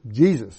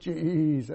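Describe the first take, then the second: First: The name is said plainly at normal length. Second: The name is drawn out and stretched long. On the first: The speaker calls it right. "it's just Jesus" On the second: The speaker calls it wrong. "It's not his name long"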